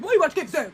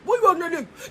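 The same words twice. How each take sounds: First: Half-laughing mock question; amused, mocking repeat; laughing through it. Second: Lightly put-on scolding woman's voice; a hint of a scolding wife; mock nagging woman. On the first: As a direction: laugh as you ask it. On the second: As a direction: play the nagging wife, a bit lower.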